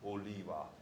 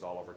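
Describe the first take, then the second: First: The name is said the Hawaiian way. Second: The name is said the usual English way.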